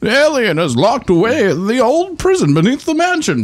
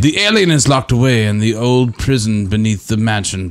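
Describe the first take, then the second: First: It is read in a put-on character voice. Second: It is read in an ordinary, unaltered voice. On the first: The speaker calls it right. "so I gotta do it again" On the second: The speaker calls it wrong. "he doesn't sound like that"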